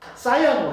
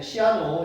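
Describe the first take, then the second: First: The first syllable is said like 'sigh'. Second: The first syllable is said like 'see'. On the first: This is the English pronunciation. "영어로 그 어, 사이아노 이렇게 얘기하는데" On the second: This is the commonly used local pronunciation. "시아노 이렇게 얘기하고"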